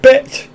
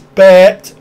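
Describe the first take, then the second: First: The vowel is short and clipped. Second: The vowel is long and drawn out, bleat-like. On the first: The speaker calls it wrong. "it's actually not bet" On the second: The speaker calls it right. "It's like a sheep, bet. It's longer"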